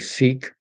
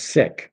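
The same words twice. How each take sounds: First: The word has the common Canadian sound. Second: The word has the sound the speaker prefers. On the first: This is how most people in the country say it. The speaker calls it wrong. "Most Canadians say Sikh" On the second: This is how the word is meant to sound. The speaker calls it right. "That's the way you're supposed to pronounce it"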